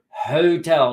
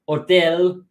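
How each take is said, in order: First: The word begins with an audible H sound. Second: The word begins without any H sound. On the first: The speaker calls it right. "this H we pronounce in this word" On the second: The speaker calls it wrong. "not hotel"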